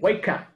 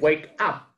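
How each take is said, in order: First: The two words are linked together. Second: The two words are said separately. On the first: The speaker calls it right. "el wake up se une, ... sino que wake up" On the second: The speaker calls it wrong. "ya no se dice wake up"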